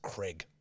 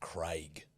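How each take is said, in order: First: The name is said in an American accent. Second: The name is said in an Australian accent.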